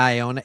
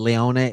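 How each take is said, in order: First: The name starts with a vowel sound. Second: The name starts with an L sound. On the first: This is how people usually say it. "that's what they say" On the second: Some people add a sound that is not in the spelling. "other times I've heard Le- Leone, and even though there's not an L"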